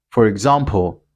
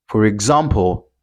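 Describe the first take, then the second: No difference in how they are said.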